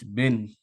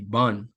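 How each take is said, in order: First: The vowel sounds like the e in bed. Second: The vowel sounds like the a in ban. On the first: The speaker calls it wrong. "this is how they would say it, right? Which is not the correct pronunciation" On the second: The speaker calls it right. "which actually is supposed to be Ban"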